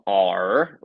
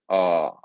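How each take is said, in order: First: The R is said with an American sound. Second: The R is said with a lazy British sound. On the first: The speaker calls it wrong. "it's not R like Americans" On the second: The speaker calls it right. "it's R, R, which almost sounds lazy"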